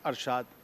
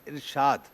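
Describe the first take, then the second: First: The word begins with an 'a' vowel. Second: The word begins with an 'i' vowel. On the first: The speaker calls it wrong. "Not अरशाद" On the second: The speaker calls it right. "It's इरशाद"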